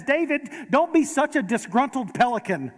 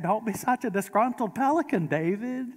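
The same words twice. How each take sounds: First: A hint of Moira's grand scolding, a touch higher; lightly voiced theatrical mother; light Moira Rose. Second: Put-on Moira Rose accent. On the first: Preacher quoting a TV mother scolding her son, lightly voiced. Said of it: "and she says". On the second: Preacher redoing the TV mother's line in her odd accent. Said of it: "if you heard it in her accent".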